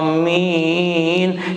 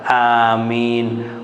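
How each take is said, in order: First: The word is drawn out long and melodiously. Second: The word is said at moderate, short length.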